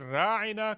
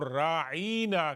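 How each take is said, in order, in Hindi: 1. बीच का स्वर छोटा और बिना खिंचा हुआ है। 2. बीच का स्वर लंबा और खिंचा हुआ है। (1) "बजाय इसके कि राइना कहते" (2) "थोड़ा सा उसको कश दें"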